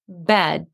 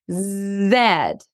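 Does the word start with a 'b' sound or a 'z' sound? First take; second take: b sound; z sound. First: The word starts with a 'b' sound. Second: The word starts with a 'z' sound. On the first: The speaker calls it right. "let me say it again... thumbs up. That sounds right" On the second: The speaker calls it wrong. "instead of saying the word bed, maybe I'll say something that's way different and even atypical"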